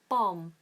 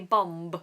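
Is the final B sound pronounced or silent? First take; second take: silent; pronounced. First: It ends on the M sound with no B. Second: It ends with an audible B sound. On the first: The speaker calls it right. "That's also got a silent B on the end" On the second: The speaker calls it wrong. "So don't say bomb"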